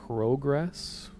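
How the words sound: It is said in a Canadian way.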